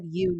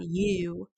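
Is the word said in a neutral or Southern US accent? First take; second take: neutral; Southern. First: The word has a plain, neutral accent. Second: The word has a strong Southern US drawl. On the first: This is the speaker's natural accent. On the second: The accent is put on for show. "really southern"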